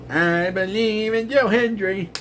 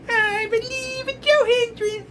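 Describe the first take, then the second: First: Slow sneering sing-song of the chant; mock-chanting the catchphrase. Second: Chanted, high falsetto sing-song mockery, slow; hammed-up falsetto chant; mocking high chant. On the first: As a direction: sing the fan chant with contempt. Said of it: "that frickin' stupid song". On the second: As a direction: squeal the chant like an annoying fan. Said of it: "gives me a headache every time I hear".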